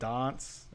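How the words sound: It is said the South Australian way. "Adelaide or South Australia do The Castle and dance"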